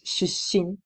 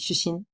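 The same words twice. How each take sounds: First: A short held pause splits the middle consonant. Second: The word flows without a break in the middle. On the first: The speaker calls it right. "with the pause" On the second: The speaker calls it wrong. "if I wouldn't say the pause"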